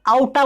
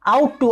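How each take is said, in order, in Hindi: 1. दोनों शब्द मिलकर एक छोटा शब्द बन जाते हैं। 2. दोनों शब्द पूरे और अलग-अलग बोले जाते हैं।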